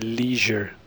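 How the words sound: It is said with an American pronunciation.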